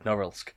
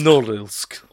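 First: It is said in the speaker's ordinary accent. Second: It is said in an exaggerated Russian accent.

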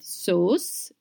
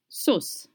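First: The vowel is dragged out long. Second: The vowel is kept short. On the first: The speaker calls it wrong. "Sauce is not sauce" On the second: The speaker calls it right. "it's sauce"

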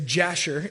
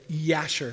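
First: It begins with a J sound, American style. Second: It begins with a Y sound, Jewish style.

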